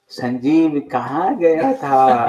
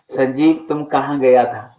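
First: It sounds knowing and teasing, as if aware. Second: It sounds like a genuinely curious question.

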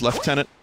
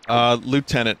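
First: The word has the British pronunciation. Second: The word has the American pronunciation. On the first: "maybe more British is lieutenant" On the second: "how I grew up hearing it... more of an American thing"

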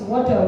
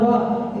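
First: The word is said in full, two syllables. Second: The word is cut short to one syllable. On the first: The speaker calls it right. "it's water" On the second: The speaker calls it wrong. "it's not wah"

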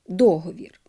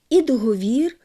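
First: The stress is on the first syllable. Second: The stress is on the last syllable. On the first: It follows the native Ukrainian pattern. The speaker calls it right. "наголоси на першому складі" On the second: It follows the Russian pattern. The speaker calls it wrong. "бо російською «договор»"

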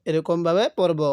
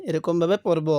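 The two takes are said the same way.

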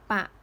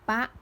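First: The syllable is said on a low tone. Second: The syllable is said on a high tone. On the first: "เสียงเอก" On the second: "ตรี"

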